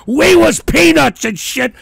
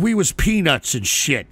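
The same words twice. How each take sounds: First: Loud mocking repeat; mocking shout. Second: Said in the usual way. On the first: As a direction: throw his words back loudly. Mocking the player's words.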